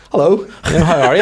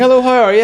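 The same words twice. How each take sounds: First: Higher, louder chirpy hello; a bright overfriendly hello; friendly greeting. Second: Much higher, louder mock chirpy hello; squeaky hello. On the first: Retold or imitated. Greeting the banker in the jacuzzi, chirpy hello. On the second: To the silent banker, a squeaky mock greeting. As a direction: squeak it out like an overeager stranger.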